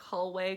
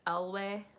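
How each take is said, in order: First: The word starts with an h sound. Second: The word starts without an h sound.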